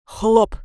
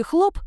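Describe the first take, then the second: First: Хлоп burst out short and loud; ominous pop. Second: Said in the usual way. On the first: Acted. Shadow ending its story with a loud ominous хлоп. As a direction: drop хлоп like a sinister bang. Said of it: "слишком зловещий хлоп". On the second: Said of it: "зловещий хлоп у него получился".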